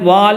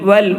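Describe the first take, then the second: First: The vowel is drawn out long. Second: The vowel is said short. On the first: The speaker calls it wrong. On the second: The speaker calls it right.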